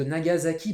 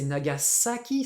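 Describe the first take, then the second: First: NAGASAKI said na-ga-za-ki; French Nagasaki. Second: NAGASAKI with a clear s; Japanese Nagasaki. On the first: Teacher naming the city French-style, NAGASAKI with a z. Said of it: "c'est Nagasaki". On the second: Teacher correcting students, NAGASAKI with an s. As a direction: say na-ga-SA-ki, s not z in NAGASAKI. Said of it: "en japonais c'est Nagasaki". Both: Shown as a demonstration.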